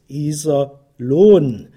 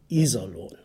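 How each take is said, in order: First: The stress is on the last syllable. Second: The stress is on the first syllable. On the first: A local says it this way. The speaker calls it right. "das wird immer hinten betont" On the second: An outsider says it this way. The speaker calls it wrong. "nur Ortsfremde sagen"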